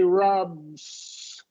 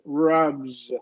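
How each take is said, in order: First: The word ends with a hissing s sound. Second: The word ends with a buzzing z sound. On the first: The speaker calls it wrong. "As long as you don't say rubs and it sounds like an S" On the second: The speaker calls it right. "what you want to"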